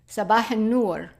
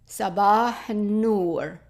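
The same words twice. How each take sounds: First: It is said fast. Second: It is said slowly.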